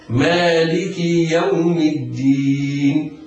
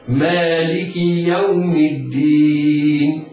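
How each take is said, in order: No difference in how they are said.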